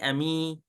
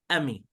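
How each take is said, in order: First: The vowel is held long. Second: The vowel is kept short. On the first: The speaker calls it wrong. "not don't say Ami" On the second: The speaker calls it right. "a short vowel"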